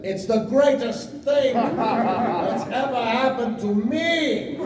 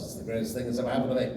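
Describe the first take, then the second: First: Bigger retake. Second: Said in the usual way. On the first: Shown as a demonstration. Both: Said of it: "Sorry, let me try that again".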